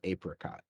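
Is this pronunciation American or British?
British. It is said with a British pronunciation. "British English is apricot"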